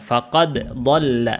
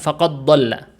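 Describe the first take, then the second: First: The d is released clearly before the next consonant. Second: The d is merged into the following consonant. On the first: The speaker calls it right. "Faqad dibacanya jelas faqad. Jadi dia qalqalah dulu, enggak dimasukkan ke huruf dhad" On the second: The speaker calls it wrong. "bukan faqad dhalla. Itu bukan diidghamkan"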